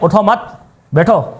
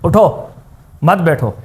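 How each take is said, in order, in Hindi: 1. मत के ठीक बाद विराम है। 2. उठो के ठीक बाद विराम है। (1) "हम रुकते हैं यहां पे, मत पे रुकते हैं" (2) "यहां पे हम स्टॉप कर देते हैं"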